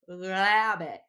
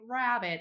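First: The word begins with a distorted L-like sound. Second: The word begins with a clear R sound. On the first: "this really distorted L sound" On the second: "they don't say rabbit"

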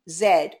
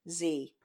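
First: The letter is said the British way, zed. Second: The letter is said the American way, zee.

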